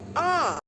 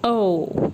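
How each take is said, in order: First: The vowel is short, as in hot. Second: The vowel is long, as in go. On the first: "the short vowel sound" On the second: "Long O"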